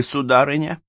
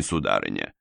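First: Сударыня lifted high with a rising tune; pointed address. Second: Сударыня said low and falling, dropping away; low polite address. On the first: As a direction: throw сударыня up as a challenge. (сударыня — высоко, с подъёмом) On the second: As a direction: let сударыня sink low and fade. (сударыня — низко, с падением тона) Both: A narrator's reading. Сыщик обращается к даме.

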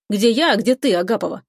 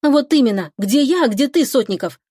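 First: Teasing, dismissive jab; provoking scoff. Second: Higher-pitched, heated comeback; indignant retort. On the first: Man provoking the girl over the fiancé idea, scoffing. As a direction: wind her up with the contrast. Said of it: "хмыкаю, ещё больше её раздраконивая". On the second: Girl returning the man's insult, indignant. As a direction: throw his words back at him. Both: A narrator's reading.

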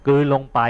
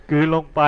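First: Said in the usual way. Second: "กลืนลงไป" repeated higher with a laugh. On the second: Shown as a demonstration. Monk repeats the translation "กลืนลงไป", amused and laughing. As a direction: chuckle as you say "กลืนลงไป" again. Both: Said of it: "คำแปลนิคระ นิคระก็".

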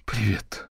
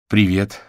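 First: Trembling voice. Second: Said in the usual way. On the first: Acted. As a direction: greet her sister, voice quivering with fear. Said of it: "дрожащим голосом поздоровалась Робин".

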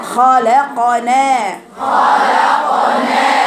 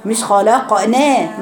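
First: خلقنا drawn out very slowly with a balanced نا; teacher giving the student the right خلقنا; correct na. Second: خلقنا slowed, the final نا too tilted; teacher correcting a student's خلقنا; wrong na. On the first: Teacher slowly recites the correct خلقنا. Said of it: "هي نا". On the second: Teacher slowly shows the wrong خلقنا. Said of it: "مش نا". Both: Shown as a demonstration.

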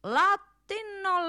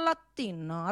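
First: Drawn-out high latino. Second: Low soft latino. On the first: Mocking the Latin speaker, drawn-out high "Latino,". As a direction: stretch "Latino," slowly, pitched well up. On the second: Mocking the Latin speaker, low soft "latino,". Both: Acted. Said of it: "parla pure latino".

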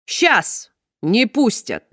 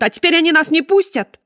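First: Очень медленно, с угрозой; хищно передразнить жену; угрожающая усмешка. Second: Высоко и громко, с отчаянием; выкрикнуть с отчаянием; истеричный крик. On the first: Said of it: "хищно раздул ноздри". (клетчатый муж угрожающе повторяет за женой) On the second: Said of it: "закричала". (хозяйка Сеттера кричит, что их не выпустят) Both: Acted.

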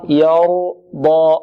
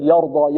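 First: يرضى with a thin ya and a heavy ra, drawn out; يرضى with a light ya; correct ya and ra. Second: يرضى with the ya made heavy; wrong ya. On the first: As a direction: say يرضى slowly, light ya then thick ra. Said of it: "والراء مفخمة". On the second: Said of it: "لا نقول". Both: Shown as a demonstration.

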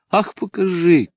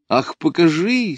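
First: A high, bright call from where she lies. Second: A high, pleading call repeated; calling out again. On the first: Lida begs to see the sketch, calling out. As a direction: call out eagerly without moving. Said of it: "крикнула Лида". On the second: Lida asks again to see the drawing, calling. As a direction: call out once more, insisting. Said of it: "снова крикнула она". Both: A narrator's reading.

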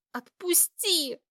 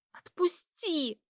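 First: Slow hiss, higher and louder; hissing louder to let go. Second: Slow strained hiss, higher; pained hiss to let go. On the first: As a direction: hiss it harder at him. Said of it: "громче зашипела я". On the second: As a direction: hiss it out through the pain. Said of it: "зашипела я от боли". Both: A narrator's reading.

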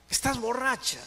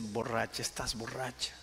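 First: High-pitched demand; acted challenging question. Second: Retold contempt. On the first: Husband testing whether his wife is drunk, acted challenge. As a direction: question her sharply, pitch leaping up. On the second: Husband looking down on his kneeling wife, quiet acted contempt. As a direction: dismiss her quietly with understated scorn. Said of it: "la miró con desprecio y dice".

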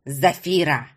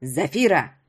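First: Put-on old man's low, lightly growled call; lowered, gruff grandfather's summons. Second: Put-on low-pitched, nasty old-woman call; moderately raised, disagreeable crone's voice; unpleasant crone's call. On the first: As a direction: growl the name in displeasure. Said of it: "прорычал старик". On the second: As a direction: call the name out obnoxiously. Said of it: "крикнула громко и противно". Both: A narrator's reading.

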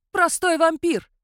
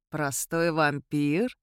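First: "Простой вампир!" screeched high and loud, falling; shrieking king. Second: Amused scoff. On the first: The king sneers at Sandru with a loud high shriek. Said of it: "завизжал король". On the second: Sandru mocks the king's words, low and slow. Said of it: "Сандру рассмеялся". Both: A narrator's reading.

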